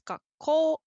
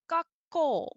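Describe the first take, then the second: First: The pitch rises on the second part. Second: The pitch does not rise on the second part. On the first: The speaker calls it right. "So it goes up on the second part" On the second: The speaker calls it wrong. "which you would think would be gakko"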